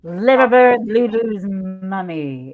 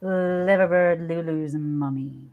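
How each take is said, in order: First: Loud opening, then drawn out; big slow ceremonial hello; signature greeting. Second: Slow, low, long-drawn hello; low lingering delivery, sinking at the end; heartfelt signature greeting. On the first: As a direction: belt the start, stretch the name out slowly. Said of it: "I always have to say it like that". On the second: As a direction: put your heart into every drawn-out word. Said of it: "really put my heart into it". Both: Shown as a demonstration.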